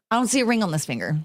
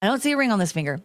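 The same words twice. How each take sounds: First: Laughing through it, a bit quicker. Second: Said in the usual way. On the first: Shown as a demonstration. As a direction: giggle while showing the bare finger. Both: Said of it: "I'll put my right hand up".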